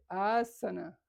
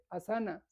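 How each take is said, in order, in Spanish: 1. Se dice con pronunciación sánscrita. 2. Se dice con pronunciación occidental. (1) "se dice asana" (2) "no se dice asana"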